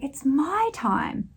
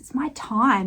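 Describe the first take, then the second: First: The stress is on the word it's. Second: The stress is on the word time.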